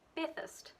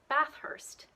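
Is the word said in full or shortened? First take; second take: shortened; full. First: The word is shortened, its ending reduced. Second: Every syllable is said fully and clearly. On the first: The speaker calls it right. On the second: The speaker calls it wrong.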